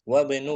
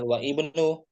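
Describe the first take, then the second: First: The 'i' vowel is dropped, linking straight into 'bnu'. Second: The 'i' vowel is pronounced separately after 'wa'. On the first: The speaker calls it right. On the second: The speaker calls it wrong. "jangan wa ibnu"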